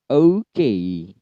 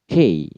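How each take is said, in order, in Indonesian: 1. Kata ini dimulai dengan bunyi o yang penuh. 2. Bunyi o di awal sama sekali dihilangkan. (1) "Okay itu yang asli" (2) "O-nya jadi K"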